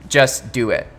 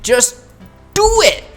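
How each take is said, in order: First: It is said in a calm, ordinary way. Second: It is said with intense, epic energy.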